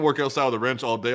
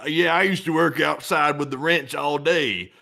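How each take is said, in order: First: Said in the usual way. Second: Slow, drawn-out fake Southern drawl; mock Southern accent. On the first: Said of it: "you grew up in New York". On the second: Politician pretending to Southerners he's a ranch hand, mock Southern accent. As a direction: put on a Southern farmhand accent. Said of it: "like, in the South".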